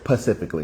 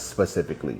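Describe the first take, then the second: First: The word begins with a 'pa' sound. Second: The word begins with an 'spe' sound. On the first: The speaker calls it wrong. "somebody that says pacifically" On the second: The speaker calls it right. "not specifically"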